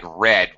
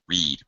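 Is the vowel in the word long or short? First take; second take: short; long. First: The vowel is short, rhyming with bed. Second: The vowel is long, rhyming with seed. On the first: The action happened in the past. The speaker calls it wrong. "you pronounced it like read, which would be past tense" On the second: The action happens in the present. The speaker calls it right. "read, present tense"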